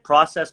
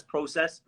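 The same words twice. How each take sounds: First: "process" with an open ah, "PRAH-sess"; American process. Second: "process" with a long O, "PROH-sess"; Canadian process. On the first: Showing the audible difference, "process" as "PRAH-sess". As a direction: say "process" with a short open first vowel. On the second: Showing the audible difference, "process" as "PROH-sess". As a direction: round the first vowel of "process" to oh. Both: Shown as a demonstration. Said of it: "I can hear the difference".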